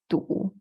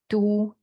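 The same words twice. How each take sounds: First: It is said in the third tone. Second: It is said in the first tone. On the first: It means stuck. "the next one is stuck" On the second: It means city. "from the left is the first tone"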